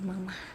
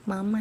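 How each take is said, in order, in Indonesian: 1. Kata itu berakhir dengan bunyi h yang berdesah. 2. Kata itu berakhir dengan jelas pada vokal. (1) "bukan mama" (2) "nggak pakai h"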